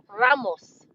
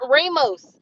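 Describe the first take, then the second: First: The first vowel sounds like 'ah'. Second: The first vowel sounds like 'ay'. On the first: The speaker calls it right. "His name is spelled R A M O S" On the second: The speaker calls it wrong. "It's not Ramos. ... if it was Ramos, it would be R A I M O S"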